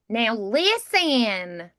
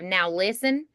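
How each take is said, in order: First: The vowels are changed into different sounds. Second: The vowels are said in the normal way. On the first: "I could do like now listen" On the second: "instead of now listen"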